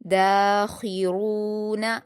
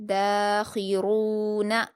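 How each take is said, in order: The two takes are said the same way.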